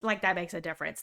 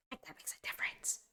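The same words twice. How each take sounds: First: Said in the usual way. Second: Whispered aside. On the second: Shown as a demonstration. Streamer repeating her point to chat as an aside, whispered.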